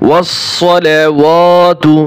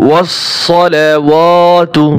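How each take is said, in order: Both takes have the same delivery.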